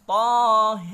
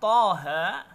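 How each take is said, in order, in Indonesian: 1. Vokal akhirnya condong ke e. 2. Vokal akhirnya adalah a terbuka.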